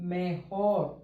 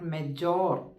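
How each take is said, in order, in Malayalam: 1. നടുവിലെ വ്യഞ്ജനം ശ്വാസം ചേർന്ന 'h' ശബ്ദമാണ്. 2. നടുവിലെ വ്യഞ്ജനം ഇംഗ്ലീഷിലെ 'j' ശബ്ദമാണ്. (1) "ബെറ്റർ ഇങ്ങനെ പറയും" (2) "നോട്ട്"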